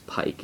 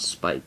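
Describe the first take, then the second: First: The word begins with a p sound. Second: The word begins with an s sound. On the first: The speaker calls it right. "it's Pike" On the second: The speaker calls it wrong. "It's not Spike"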